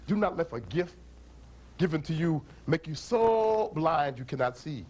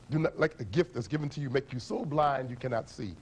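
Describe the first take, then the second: First: Slow, measured saying; solemn proverb; proverb recited. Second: Said in the usual way. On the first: Shown as a demonstration. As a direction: lay out the proverb weighing each word. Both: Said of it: "the African people say".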